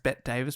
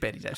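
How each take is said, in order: First: The first name has one syllable. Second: The first name has two syllables. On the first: The speaker calls it wrong. "I have heard people pronounce it as Bet Davis before, so they're wrong" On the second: The speaker calls it right. "Yes, it is Betty Davis"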